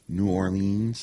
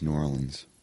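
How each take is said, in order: First: The name is said the way outsiders say it. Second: The name is said the way locals say it. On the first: The speaker is not from the area. The speaker calls it wrong. "I'll hear people be like" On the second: The speaker is from the area. The speaker calls it right. "no, it's New Orleans"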